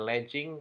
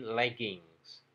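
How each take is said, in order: First: The word ends without an s sound. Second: The word ends with an s sound. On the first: The speaker calls it wrong. "Jadi bukan legging" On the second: The speaker calls it right. "tetapi leggings"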